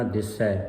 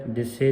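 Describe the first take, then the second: First: ਦਿਸੈ ending in an open ai; correct pronunciation. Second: ਦਿਸੇ ending in a close ay; wrong pronunciation. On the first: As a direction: open the last vowel of ਦਿਸੈ, as in cat. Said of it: "ਦਿਸੇ ਨਹੀਂ ਪੜ੍ਹਨਾ". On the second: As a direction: end ਦਿਸੇ on e as in they. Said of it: "ਨਹੀਂ ਪੜ੍ਹਨਾ". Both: Shown as a demonstration.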